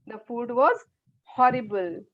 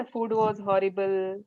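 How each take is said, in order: First: Heavy weight on "was" and "horrible"; "The food was horrible" with emphasis on "was" and "horrible"; with force. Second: Said in the usual way. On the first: Shown as a demonstration. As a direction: push real feeling into "horrible". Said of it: "हम उसमें कितनी जोर लगाते हैं". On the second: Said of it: "नहीं".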